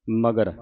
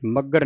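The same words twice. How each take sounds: First: ਮਗਰ with a single loose g; soft, ungeminated. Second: ਮੱਗਰ with a doubled g; wrong gemination. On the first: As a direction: keep the g light in ਮਗਰ. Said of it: "ਪੋਲਾ ਉਚਾਰਨ ਕਰਨਾ ਹੈ". (ਮਗਰ ਪੋਲਾ, ਅਧਿਕ ਤੋਂ ਰਹਿਤ) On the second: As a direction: press hard on double g in ਮੱਗਰ. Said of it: "ਮੱਗਰ ਨਹੀਂ ਕਹਿ ਦੇਣਾ". (ਮੱਗਰ ਅਧਿਕ ਲਾ ਕੇ) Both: Shown as a demonstration.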